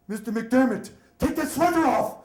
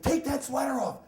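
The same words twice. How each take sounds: First: High, loud commanding order; stern nun's shout. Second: Higher, firm command; stern repeated order. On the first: Nun yelling at nervous boy to remove sweater, loud and stern. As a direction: bark it like a strict nun at a student. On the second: Nun ordering boy again to take sweater off, higher and firm. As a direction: lay down the law like a nun. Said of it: "She's like". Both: Retold or imitated.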